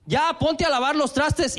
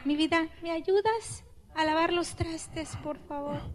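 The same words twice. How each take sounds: First: Higher, slow scolding order; bossy demand. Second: Soft, gentle request; sweet asking. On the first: Wife orders husband to wash dishes, bossy demand. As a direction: snap out the order like a nag. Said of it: "A eso se refiere pedir, no reclamar". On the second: Wife sweetly asks husband to wash dishes, soft tender plea. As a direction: ask nicely, tender and soft. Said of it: "Pedir, no reclamar". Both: Shown as a demonstration.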